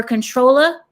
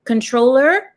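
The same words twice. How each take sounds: First: "controller" as "controlla", rising like a question; R-less Southern-style "controller"; dropped ER ending. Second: Said in the usual way. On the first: Shown as a demonstration. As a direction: swap the final ER of "controller" for "ah". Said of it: "drop the E R and put an A". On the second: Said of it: "when I say controller".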